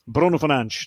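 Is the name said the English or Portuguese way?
Portuguese. The name is said with Portuguese pronunciation. "That's the, the Portuguese uh, pronunciation of his name"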